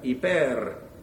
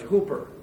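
First: The final r is rolled. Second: The final r is soft, not rolled. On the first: The speaker calls it right. "Roll the rrr on the end" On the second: The speaker calls it wrong. "by those who don't know how to pronounce the Greek language"

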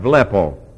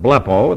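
First: The word begins with a V sound. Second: The word begins with a B sound. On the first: The speaker calls it right. "It's a V. V sound" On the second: The speaker calls it wrong. "you may pronounce it blepo. That's okay. Not in front of me"

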